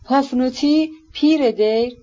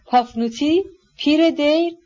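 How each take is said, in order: First: Clear, careful announcement of a name; serious, precise. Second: Higher-pitched, questioning call after someone; anxious calling out. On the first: Prince beginning his explanation, serious and precise. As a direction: state it gravely, each phrase set apart. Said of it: "با لحنی جدی و با روشنی و دقت". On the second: Wife calling after her hurrying husband, mildly anxious calling out. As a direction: call it out as a worried, peevish question. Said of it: "با نگرانی بسیار ... فریاد زد". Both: A narrator's reading.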